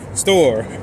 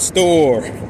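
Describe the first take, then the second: First: The vowel is kept short. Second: The vowel is drawn out long. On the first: The speaker calls it right. "Got short" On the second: The speaker calls it wrong. "my words becoming longer"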